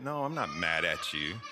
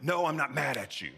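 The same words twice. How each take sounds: First: Lower, soothing denial; easy, comforting tone; gentle reassurance. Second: Higher, irritated denial; mock-angry outburst; mad tone. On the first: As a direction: reassure them kindly that all is well. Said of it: "when you think about even tone". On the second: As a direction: snap it angrily, contradicting the words. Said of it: "your words do not match your tone". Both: Shown as a demonstration.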